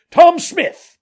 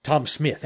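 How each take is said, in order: First: High, full-voiced shout to someone far off; high-pitched, hailing yell; loud calling out. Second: Said in the usual way. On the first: A narrator's reading. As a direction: holler it as loud as you can. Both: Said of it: "calls out as loud as he could".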